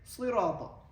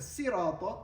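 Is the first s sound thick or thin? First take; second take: thick; thin. First: The first s sound is thick and emphatic. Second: The first s sound is thin and light. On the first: "I was change the sin to a thick version of, of sin, which is sad" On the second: "instead of sirata"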